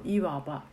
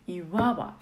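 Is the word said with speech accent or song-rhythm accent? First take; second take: speech accent; song-rhythm accent. First: It has the normal spoken Japanese pitch accent. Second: The accent shifts to fit the song's rhythm. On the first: "日本語だといわばですけど" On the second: "曲のリズムに合わせるといわばって感じです"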